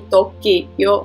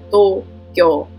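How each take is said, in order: First: The 'kio' part is said as two syllables. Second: The 'kio' part is said as one syllable. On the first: This is the usual Czech pronunciation. The speaker calls it wrong. "to není Tokio" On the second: This follows the Japanese pronunciation. The speaker calls it right. "ale Tokio"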